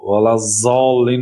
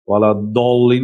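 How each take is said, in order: First: The last word begins with a z sound. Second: The last word begins with a plain d sound. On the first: "ولا زالین هم نمیگوید" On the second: "ولا دالین هم نه"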